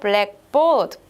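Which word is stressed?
board. The stress falls on board. "보드에 스트레스를 주면"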